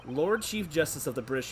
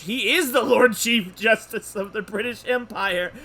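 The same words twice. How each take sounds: First: Said in the usual way. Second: Loud, high, slow emphasis on the title; amazed exclamation. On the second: Real, not acted. Player reacting to the judge's title, loudly amazed. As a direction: proclaim it in loud disbelief.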